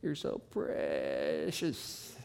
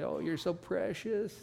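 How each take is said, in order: First: Slow, low Southern Texas drawl stretched over many syllables; drawn-out Southern Texas drawl. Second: Higher, sweet Southern Texas gush; Southern Texas woman. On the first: Preacher mimics a Texas woman, slow Southern drawl. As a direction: stretch each word like a Texas lady. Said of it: "they gotta do it in a few syllables". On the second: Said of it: "like a Southern Texas woman would say". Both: Retold or imitated.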